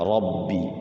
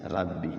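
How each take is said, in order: First: The r is heavy and thick. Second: The r is light and thin. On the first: The speaker calls it right. "Rabbi pakai pakai o, rabbi tebal" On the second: The speaker calls it wrong. "Kalau rabbi itu tipis ya"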